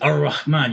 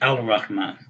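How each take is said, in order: First: The L blends into a doubled R sound. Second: A clear L sound comes before the R. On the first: The speaker calls it right. "You say Ar-Rahman" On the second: The speaker calls it wrong. "you don't say Al-Rahman"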